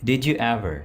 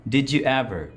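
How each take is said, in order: The two takes are said the same way.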